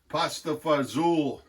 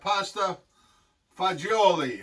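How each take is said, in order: First: The last word is clipped to fa-ZOOL, American style. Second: The last word sounds like fa-JO-lee, Italian style. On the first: The speaker calls it wrong. "we always pasta fazool" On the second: The speaker calls it right. "That's how they really say it in in Italy"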